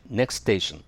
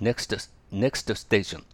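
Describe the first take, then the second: First: "next station" run together as neks-teishon, no T in next; dropped T. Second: "next station" said slowly with the T of next sounded out; over-careful pronunciation. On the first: Teacher showing learners the easy way, T of next left silent. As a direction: link "next station" smoothly, leaving out the first T. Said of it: "前のTを発音しなければ". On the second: Teacher showing learners the hard way, "next station" sounded letter by letter. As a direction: labour through every consonant in "next station". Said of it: "ちょっと言いづらいでしょ". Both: Shown as a demonstration.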